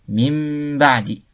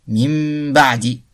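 Both takes have the same delivery.

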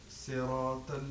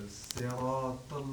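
The two takes are said the same way.

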